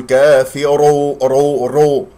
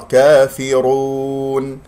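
First: "كافر، رو، رو" with the r repeated; wrong repeated ra. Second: Slow chanted "كافرون" with one clean r; correct single ra. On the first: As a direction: stutter the r of "رو" as a faulty example. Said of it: "لا تكررها". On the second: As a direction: recite "كافرون" long and steady, r not repeated. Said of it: "خطأ". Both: Shown as a demonstration.

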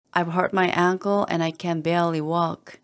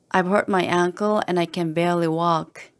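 No difference in how they are said.

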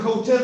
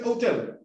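First: "hotel" with an audible breathy H first; H sounded in HOTEL. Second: "hotel" starting straight on the O; H dropped in HOTEL. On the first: ("hotel" con la H inicial aspirada) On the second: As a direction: drop the H, say "otel" for "hotel". ("hotel" sin la H inicial) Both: Shown as a demonstration. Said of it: "a veces se comen la H inicial".

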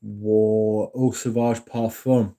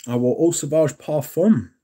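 First: Slow and careful. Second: "I wore Eau Sauvage Parfum" said again, clearer and a bit higher; correcting the slurred name; clear correction. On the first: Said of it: "Excuse me". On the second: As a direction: repeat "Eau Sauvage Parfum" cleanly, every syllable clear. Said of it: "Excuse me. Sorry". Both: Real, not acted.

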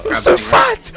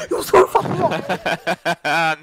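First: High sung taunt; sung, sing-song taunt. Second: Slow stretched yell; drawn-out shout. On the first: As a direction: sing the insult at him, teasing. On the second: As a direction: stretch each word out into a yell. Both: Acted.

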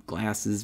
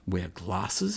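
First: "glasses" with a flat American a, klass-iz. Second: "glasses" with a long British ah vowel, klah-sez. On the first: Real, not acted. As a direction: say "glasses" the plain New York way. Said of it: "this accent". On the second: Acted. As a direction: say "glasses" the posh English way. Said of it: "his phony accent".

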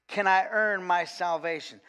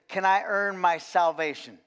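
The two takes are said the same way.

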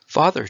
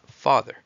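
First: Loud, high call to his father; a boy calling his father for attention. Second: Loud proud call of Father; a clever boy proudly presenting his answer; proud announcement. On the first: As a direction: call out to Father across the crowd. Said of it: "Chong then called out". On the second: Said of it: "He proudly announced". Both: A narrator's reading.

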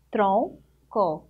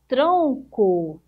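First: "Tronco" as two parts, tron, pause, co; split into syllables. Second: Said in the usual way. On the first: Shown as a demonstration. Teacher counting two syllables for pupils, "Tronco" split apart. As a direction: break "Tronco" after "Tron" with a clear gap. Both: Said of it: "Duas sílabas".

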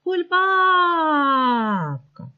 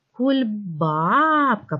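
First: Кульбабка called out high, with a very long "баа"; calling the word. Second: Кульбабка very slow, stressed second syllable stretched; stress on БАБ. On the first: Teacher calling a word to find its stress, long high ба. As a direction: call Кульбабка as if summoning it, pitch sliding down. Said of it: "Покличте слово". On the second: Teacher finding the stressed syllable, stretching ба in Кульбабка. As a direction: lean long on the "ба" in Кульбабка. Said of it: "Давайте поставимо наголос відразу". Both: Shown as a demonstration.

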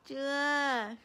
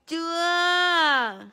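First: Said in the usual way. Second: Loud, falling playful scold; a pretend smack in the voice; hammed-up loud scold; mock scolding. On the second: Mock punishing baby.

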